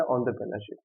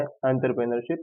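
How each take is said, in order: First: एंटरप्रेन्योरशिप begun with rounded "ON-der"; "on" pronunciation. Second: एंटरप्रेन्योरशिप begun with "AN-ter"; "an" pronunciation. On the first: Teacher giving the alternative name, एंटरप्रेन्योरशिप said with "on-der". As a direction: say एंटरप्रेन्योरशिप with an opening "on" sound. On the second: Teacher asking what it means, एंटरप्रेन्योरशिप said with "an-ter". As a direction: say एंटरप्रेन्योरशिप with an open "an/en" start. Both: Shown as a demonstration. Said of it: "अलग-अलग type के pronunciations हैं".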